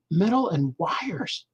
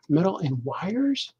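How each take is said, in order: First: Said in the usual way. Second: "Metal and wires?" slow, rising on "wires"; as a question. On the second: Shown as a demonstration. Rereading his comic line as a puzzled question. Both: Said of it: "make this a question mark".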